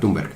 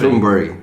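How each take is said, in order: First: The name is said with plain Spanish sounds. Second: The ending sounds like the English word berry. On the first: "vamos a hacerlo más a la española" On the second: "se pronuncia algo así como Thornberry"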